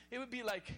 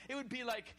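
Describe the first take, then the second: No difference in how they are said.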